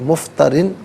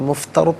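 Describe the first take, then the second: First: The word ends with the full -in ending. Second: The word ends abruptly on the final consonant. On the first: The reading continues without stopping. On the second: The reader stops at this word.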